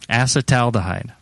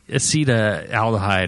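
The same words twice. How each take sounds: First: The first syllable sounds like 'ass'. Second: The first syllable sounds like 'ace'. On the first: The speaker calls it right. "So the first one's like assa" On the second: The speaker calls it wrong. "you'd think it would be like uh, ace-"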